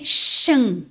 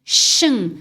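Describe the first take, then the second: The two takes are said the same way.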